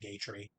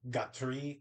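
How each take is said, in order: First: The name is pronounced in a plain English way. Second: The name is pronounced in a French-like way. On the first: This is the speaker's own habit. "I just say Gatry" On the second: This is the technically correct form. "technically, maybe correctly, it's supposed to be Gatri because it's like French or something"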